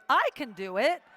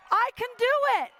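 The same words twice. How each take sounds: First: Said in the usual way. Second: Much higher, fast, loud hype; rallying her own courage; pumped-up cheer. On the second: Retold or imitated. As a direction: psych yourself up like a cheerleader. Self pep talk retold.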